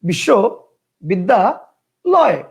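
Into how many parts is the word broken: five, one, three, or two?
three. The word is broken into three separate parts. "তিনটা"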